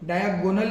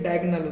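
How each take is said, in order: First: The second vowel is a full 'o' sound. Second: The second vowel is weak and reduced. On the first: The speaker calls it wrong. "डायगोनल नहीं होता" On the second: The speaker calls it right. "ये डायगनल होता है"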